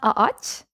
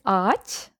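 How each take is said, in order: First: The start is said as two separate vowels. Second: The start is said as one long vowel. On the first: The speaker calls it wrong. "you would really pronounce them as two vowels" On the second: The speaker calls it right. "you just make the first A bit longer"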